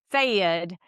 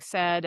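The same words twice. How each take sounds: First: "sayed" with a long Southern ay diphthong; Southern vowel in said. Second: Said in the usual way. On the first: Shown as a demonstration. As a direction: say "sayed" drawn into two-part ay, a bit louder. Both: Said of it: "like saying said as".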